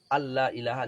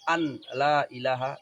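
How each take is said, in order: First: The n merges fully into the following l. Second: The n is pronounced separately before the l. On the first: The speaker calls it right. "nun yang diidghamkan di lam" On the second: The speaker calls it wrong. "Yang saya baca idgham atau tidak? Tidak"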